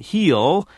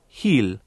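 First: The L is said the American way. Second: The L is said the Spanish way. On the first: "whereas I would say all and heel" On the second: "they're more likely to say"

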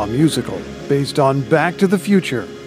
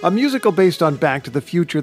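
First: It is said in a dramatic movie-trailer announcer voice. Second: It is said in a plain, normal speaking voice.

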